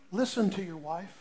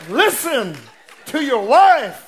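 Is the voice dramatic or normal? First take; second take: normal; dramatic. First: It is said in an ordinary speaking voice. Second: It is said in a grand, solemn put-on voice. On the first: The speaker calls it wrong. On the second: The speaker calls it right.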